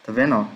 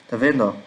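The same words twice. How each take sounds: The two takes are said the same way.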